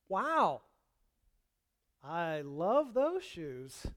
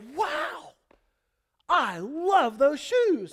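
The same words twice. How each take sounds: First: It sounds mocking and insincere. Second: It sounds warm and genuinely pleased. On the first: The speaker actually dislikes the shoes. "they don't mean it... a cutting remark" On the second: The compliment is meant honestly. "they like my shoes, cool"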